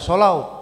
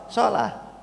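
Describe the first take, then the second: First: The word ends with an 'au' sound. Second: The word ends with an 'ah' sound. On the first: The speaker calls it wrong. "Kita nggak baca sholau" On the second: The speaker calls it right. "tapi kita baca shalah"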